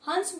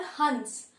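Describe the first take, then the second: First: हंस with a firm, pressed nasal before स; anusvara said with force. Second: हंस as a light nasalised vowel, no pressed nasal; soft chandrabindu nasal. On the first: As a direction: push the nasal in हंस hard. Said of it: "हंस बोलने के लिए हमें काफी pressure देना पड़ा है". (हंस को ज़ोर देकर बोलें) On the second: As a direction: let हंस glide softly through the nose. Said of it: "ज्यादा प्रेशर नहीं देना पड़ा". (हंस को हल्के, अनुनासिक स्वर में) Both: Shown as a demonstration.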